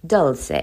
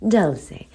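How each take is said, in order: First: "Dulce" clipped to one syllable, DULS; first try at Dulce. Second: "Dulce" in two syllables, DUL-say; "Dulce" as DUL-say with a falling end; second try at Dulce. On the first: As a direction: cut "Dulce" short with no final vowel. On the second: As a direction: give "Dulce" its final SAY vowel. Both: Shown as a demonstration. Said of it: "need a beautiful, cute accent to say it".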